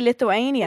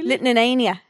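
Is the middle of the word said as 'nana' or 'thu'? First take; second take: thu; nana. First: The word is said with a clear 'thu' sound. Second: The word is said with a repeated 'nana' sound. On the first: "Jack can't say Lithuania" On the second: "What does he say?"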